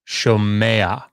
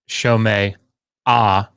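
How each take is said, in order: First: The ending glides into a short final 'a'. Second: The ending splits into a separate 'ah' syllable. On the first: The speaker calls it right. "So you get shomea" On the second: The speaker calls it wrong. "It's not shomei ah"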